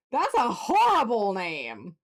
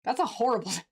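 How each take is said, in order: First: Mock-outraged verdict on the name; emphatic. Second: Laughing mid-line at a silly name; amused, breaking into a laugh. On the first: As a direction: lean hard into horrible. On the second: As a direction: giggle through the insult. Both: Real, not acted.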